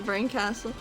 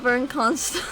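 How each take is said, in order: First: The name ends sounding like the word castle. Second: The name ends sounding like constal, with an n. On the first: This is how the speaker had been reading the name. "I've been reading her as Burn Castle" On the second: This is the pronunciation used in the game. "your pronunciation's absolutely right"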